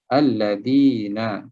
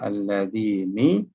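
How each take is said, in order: First: The word ends with an a vowel. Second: The word ends with an i vowel. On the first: The speaker calls it right. "Jadi dia sentiasa dibaca dengan bari atas nun ini" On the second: The speaker calls it wrong. "Kita tak baca alladzini"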